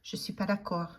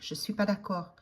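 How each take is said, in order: Both takes have the same delivery.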